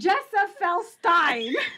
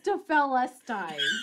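First: The name begins with a J sound. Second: The name begins with a hard G sound. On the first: The speaker calls it wrong. "you got the first letter is even wrong on yours. It's not a J" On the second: The speaker calls it right. "I got it now"

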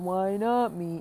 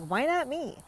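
First: It is said in a gloomy, Eeyore-like tone. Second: It is said in a confident, upbeat tone.

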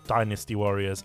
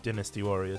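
First: It is said with an American accent. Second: It is said with a British accent.

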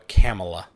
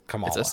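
First: The first A is hard, as in Pamela. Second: The first A is soft, unlike Pamela. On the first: The speaker calls it wrong. "you see it and you think like Pamela, but there's a K, so you would just go Kamala" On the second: The speaker calls it right. "but it's Kamala. / It's a softer A at the beginning"

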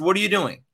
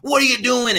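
First: It is said calmly with a stern tone. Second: It is shouted angrily, losing his temper.

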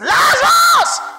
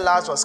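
First: The name is shouted loudly. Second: The name is said quietly. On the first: The speaker calls it right. "cried out with a loud voice" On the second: The speaker calls it wrong. "That one you don't say"

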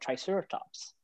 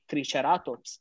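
First: The word is said with English-style vowels. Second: The word is said with Spanish-style vowels. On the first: "instead of" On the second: "he basically has the Spanish pronunciation"

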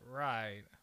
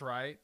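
First: It is said in a dismissive, condescending tone. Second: It is said in a plain, agreeing tone. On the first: The listener is being looked down on. "because you can be condescending" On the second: The statement is correct. "okay, that's right"

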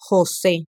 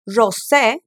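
First: The J is a harsh throat sound. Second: The J is a soft zh sound. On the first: It is the Spanish pronunciation. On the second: It is the Portuguese pronunciation.

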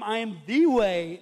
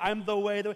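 First: The word 'the' is said with strong stress. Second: The word 'the' is said lightly, unstressed. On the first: The speaker calls it right. "the Ohio State's coming out in me" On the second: The speaker calls it wrong. "I can read it"

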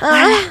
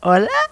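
First: It is said panting and breathless. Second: It is said plainly, without panting.

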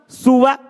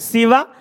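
First: The first vowel is a u sound. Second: The first vowel is an i sound.

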